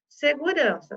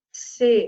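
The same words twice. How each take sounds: First: Said in the usual way. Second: Segurança split into its syllables. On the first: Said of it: "teacher models word". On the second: Shown as a demonstration. Teacher spelling the syllables aloud. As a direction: beat out Segurança. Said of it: "tá aqui".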